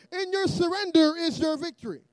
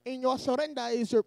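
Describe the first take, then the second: First: Said in the usual way. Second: Irish attempt sliding into Indian; botched Irish accent. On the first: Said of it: "He pro-, probably sounds more like". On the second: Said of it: "I was trying to be Irish. I went Indian".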